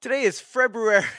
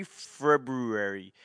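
First: Higher, louder, fast Today is February; mock announcement. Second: Slow, deliberate FEB-ROO-ary, every sound spoken; February said slowly, the r after b sounded out; careful February. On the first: Announcing the month to viewers, higher and louder. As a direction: hit "Today" with the r in February spoken. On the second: Spelling out the month to himself, slowly sounding out February. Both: Shown as a demonstration. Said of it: "February is how we're supposed to say it".

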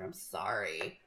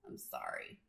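First: Low, mumbled sorry under the breath; muttered apology. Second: "sorry" breathed in a whisper; whispered apology. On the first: Host mutters an apology for her soapbox, low mumble. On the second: Host repeats her apology to listeners in a whisper. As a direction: whisper "I'm sorry" to yourself. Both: Shown as a demonstration.

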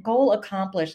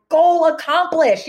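First: Said in the usual way. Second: High, loud, slow celebration; triumphant exclamation. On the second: Retold or imitated. Author reacting to her daughter's words, triumphant exclamation. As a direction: draw it out high and proud, like a victory.

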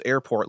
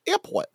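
First: Said in the usual way. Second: "Airport" said much higher, with an Australian vowel; Bluey's Australian airport. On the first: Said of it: "like, "Airport". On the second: Retold or imitated. Friend mimics cartoon kid's airport, Australian accent. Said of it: "he always and forever now says".

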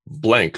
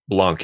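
First: Said in the usual way. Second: Blanc said as "blonk", with an ah vowel; fancy French-style pronunciation. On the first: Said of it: "or Blanc if you wanna be fancy". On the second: Shown as a demonstration. Host offers the game title's fancy version, Blanc pronounced "blahnk". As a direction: say Blanc the fancy way, rhyming with "honk". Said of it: "if you wanna be fancy".

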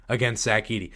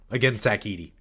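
The two takes are said the same way.

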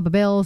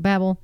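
First: "Babel" with a weak first syllable, like buh-BELL; pronounced buh-BELL. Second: "Babel" stressed up front, with a short a as in cat; pronounced BABB-ul. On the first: Showing how some people say "Babel", as buh-BELL. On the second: Showing how others say "Babel", as BABB-ul. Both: Shown as a demonstration. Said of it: "some people call it Babel".

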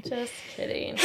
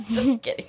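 First: Whispered aside. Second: Laughing it off. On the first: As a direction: breathe the words without voice. Repeats the joke's retraction. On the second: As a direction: chuckle through the words. Laughs off her joke. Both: Real, not acted.

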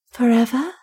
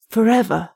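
First: Lightly voiced woman asking, solemn and hushed; solemn question. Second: Firm repeat. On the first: Stranger asking Wolfgang if he means forever, solemn. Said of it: "said the stranger solemnly". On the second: Acted. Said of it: "repeated Wolfgang".

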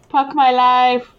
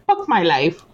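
First: Put-on Hindi accent, "Puck" for "Fuck"; slow Indian English "Puck my life"; north indian accent. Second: Put-on Hindi accent, "Fuck" said as "Puck"; north indian accent. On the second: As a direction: Indian English lilt on "Fuck my life". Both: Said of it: "with a Hindi accent".

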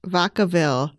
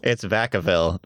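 First: Vacaville with an ah sound, VAH-ka-ville; Spanish-style Vacaville. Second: Vacaville with a flat a, VACK-a-ville; Northern California Vacaville. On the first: Real, not acted. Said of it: "is that how you say Vacaville?". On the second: Shown as a demonstration. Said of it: "you say Vacaville".

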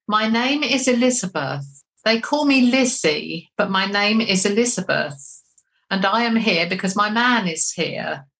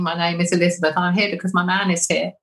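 First: Measured, deliberate spirit speaking through a medium; lightly voiced spirit announcing herself, unhurried; channelled Elizabeth. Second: Said in the usual way. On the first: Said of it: "I remember saying". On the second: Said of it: "you can hear my voice saying".

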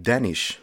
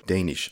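First: Danish with the short A of "Dan"; short A pronunciation. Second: Danish with the long A of "day"; long A pronunciation. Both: Shown as a demonstration. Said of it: "preferred way to say Danish".

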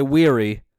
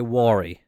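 First: "weary" said WEER-ee; long ee in the first syllable of "weary"; rejected pronunciation. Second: "worry" said WAW-ree, for wary; own pronunciation. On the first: Host repeating the form they avoid, "weary" as WEER-ee. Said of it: "I wouldn't say". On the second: Host repeating their own way, "worry" as WAW-ree. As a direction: open "war" sound in "worry". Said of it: "I would say". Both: Shown as a demonstration.

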